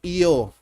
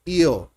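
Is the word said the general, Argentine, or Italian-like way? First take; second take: Italian-like; Italian-like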